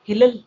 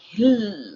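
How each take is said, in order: First: The L is said twice, adding a syllable. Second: The L sound is doubled and pressed hard. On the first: "double time ಹೇಳ್ಬಿಡೋಣ" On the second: "ಒತ್ತಿ ಹೇಳ್ತೀರಾ"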